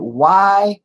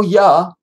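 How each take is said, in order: First: "Y" drawn out as "why"; letter name Y. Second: "ya" said as "yah", higher and louder; syllable ya. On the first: Arguing over a viewer's spelling, "Y" said slowly as "why". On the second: Arguing over a viewer's spelling, "ya" punched as "yah". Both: Shown as a demonstration. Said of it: "ain't no ya".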